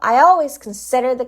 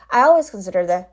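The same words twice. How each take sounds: First: The stressed syllable of consider is strong. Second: The stressed syllable of consider is weak. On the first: The speaker calls it right. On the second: The speaker calls it wrong.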